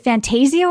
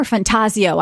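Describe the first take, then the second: First: "Fantasio" with a long AY, fan-TAY-zee-oh; FanTAYzio pronunciation. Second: "Fantasio" with an open AH, fan-TAH-zee-oh; FanTAHzio pronunciation. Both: Shown as a demonstration. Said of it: "I don't know how to say this".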